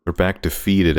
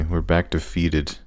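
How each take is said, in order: First: Said in the usual way. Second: Slower and softer, defeated; mock-glum Spanish-free murmur of defeat; deflated. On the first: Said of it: "repeated quieter". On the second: Real, not acted. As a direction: let it sink, dejected. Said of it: "repeat of the line".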